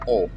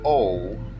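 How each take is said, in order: First: The vowel is short and tight. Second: The vowel is long and loose. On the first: The speaker calls it right. "more constricted" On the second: The speaker calls it wrong. "Not O"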